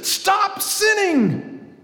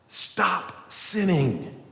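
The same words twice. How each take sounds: First: It is said very loudly. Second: It is said at a normal, quieter volume.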